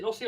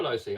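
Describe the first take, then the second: First: Lossy with a short o; short-o pronunciation. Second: Lossy with a long o; long-o pronunciation. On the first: Asking which brand pronunciation, Lossy with short o. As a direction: say Lossy to rhyme with bossy. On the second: Asking which brand pronunciation, Lossy with long o. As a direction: say Lossy as "LOW-see". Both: Shown as a demonstration. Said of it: "Is it Lossy or Lossy?".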